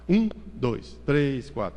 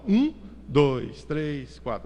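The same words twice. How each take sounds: First: The numbers are counted at a faster pace. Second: The numbers are counted at a slower pace.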